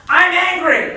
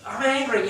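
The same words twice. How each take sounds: First: Much higher and louder, hammed-up yell; voice-only angry outburst; overacted shout. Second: Said in the usual way. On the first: Shown as a demonstration. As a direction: shout it to fake the emotion with the voice. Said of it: "instead they kinda go". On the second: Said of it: "you know, like that".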